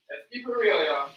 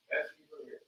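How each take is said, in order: First: "real" leaned on, higher, falling at the end; emphatic. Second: "Let's keep it real" breathed as a soft whisper; hushed catchphrase. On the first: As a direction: land hard on "real" like a slogan. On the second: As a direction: drop to a secret whisper. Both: Pretend. Repeating catchphrase in varied ways.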